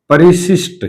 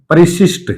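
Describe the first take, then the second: No difference in how they are said.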